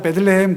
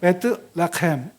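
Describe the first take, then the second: First: The second syllable starts with a soft d. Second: The second syllable starts with a t. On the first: This is the usual Korean form of the name. "우리말로는" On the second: This is closer to the original Hebrew form. "원어 발음을 하면"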